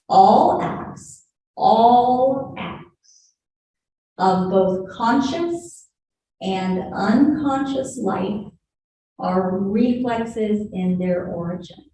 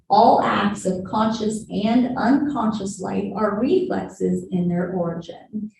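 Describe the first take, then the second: First: It is read more slowly. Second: It is read at a normal pace.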